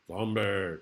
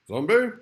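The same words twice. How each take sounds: First: Said in the usual way. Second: High, loud questioning "Zombie?"; a startled high "Zombie?" with a rising end; quizzical zombie. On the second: Acted. Zombie word play, questioning.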